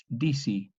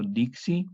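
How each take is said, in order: First: Disi with the k gone, DI-si; assimilated disi, plain s only; k dropped. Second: Dixi with a clear ks, DIK-si. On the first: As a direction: swallow the k into the s in disi. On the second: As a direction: sound the k in dixi. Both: Shown as a demonstration. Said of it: "la K se asimile a la S".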